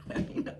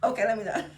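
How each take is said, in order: First: Breathy unvoiced whisper through a laugh, much softer; giggling whisper to yourself. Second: Said in the usual way. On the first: Shown as a demonstration. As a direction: laugh it under your breath. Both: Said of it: "repeats it laughing".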